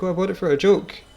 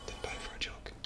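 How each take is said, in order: First: Higher, louder mock protest; feigned excuse. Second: Voiceless, hushed confession; whispered aside. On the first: Telling people in pubs why they got one, feigned excuse. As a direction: play up a breezy cover story. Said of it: "I'd be like". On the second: Pretend. Owning up after the joke excuse, whispered aside. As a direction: whisper the truth under your breath.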